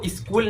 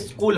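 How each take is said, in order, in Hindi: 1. यह हिंदी जैसे तरीके से बोला जाता है। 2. यह अंग्रेज़ी जैसे तरीके से बोला जाता है। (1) "वो स्कूल नहीं" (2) "स्कूल होता है, S C H double O L"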